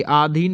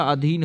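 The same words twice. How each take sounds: First: आधीन with a long आ at the start; wrong form shown. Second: अधीन with a short अ at the start; correct form. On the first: Teacher correcting spelling, आधीन said with a long first vowel. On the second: Teacher correcting spelling, अधीन said with a short first vowel. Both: Shown as a demonstration. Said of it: "अधीन होता है".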